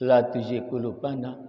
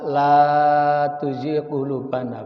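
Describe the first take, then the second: First: The vowel in 'la' is cut short. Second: The vowel in 'la' is held long. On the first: Truly make our hearts deviate. The speaker calls it wrong. "Tapi kalau dibaca pendek" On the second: Do not let our hearts deviate. The speaker calls it right. "Lamnya dibaca panjang"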